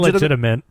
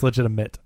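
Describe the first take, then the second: First: The last syllable has an n sound, 'ment'. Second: The last syllable has no n sound, 'mit'. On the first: The speaker calls it wrong. "You always say ment" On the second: The speaker calls it right. "There's no N"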